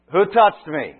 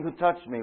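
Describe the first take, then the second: First: Loud, high demo call over a crowd; raised voice. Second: Mildly raised, a bit higher; louder. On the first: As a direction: shout it out to the whole crowd. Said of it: "he's got to raise his voice". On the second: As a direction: say it just louder. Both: Shown as a demonstration.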